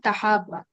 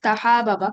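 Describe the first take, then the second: First: তাহাব্বা with one doubled, held b; contracted form. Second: তাহাবাবা with the two b's split by a vowel; uncontracted form. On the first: Teacher gives students the correct form, contracted তাহাব্বা with doubled b. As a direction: merge the ending of তাহাব্বা into a geminated "bba". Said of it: "বরং এখানে কি হবে?". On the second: Teacher shows students the expected but unused form, uncontracted তাহাবাবা. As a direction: say তাহাবাবা with separate "ba-ba" syllables at the end. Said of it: "হওয়ার কথা ছিল এরকম". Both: Shown as a demonstration.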